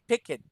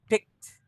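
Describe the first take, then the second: First: The ending is a separate syllable, like pick it. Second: The ending is a bare t sound, one syllable. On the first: The speaker calls it wrong. "Instead of saying pick it" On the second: The speaker calls it right. "It's like K N D"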